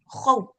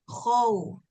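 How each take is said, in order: First: It is said harshly at level pitch. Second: It is said softly at level pitch. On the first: The speaker calls it wrong. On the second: The speaker calls it right.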